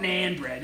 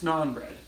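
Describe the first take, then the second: First: "naan" said with a flat short "a", like "nan" in "nanny"; "naan bread" with the short "a" of "man"; wrong pronunciation. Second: "naan" said with a long open "ah", like "nahn"; "naan bread" with the broad "a" of "father"; right pronunciation. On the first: Streamer showing viewers the wrong way to say "naan". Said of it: "It's not naan bread". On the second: Streamer correcting viewers with the broad "ah" in "naan". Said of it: "it's naan bread". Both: Shown as a demonstration.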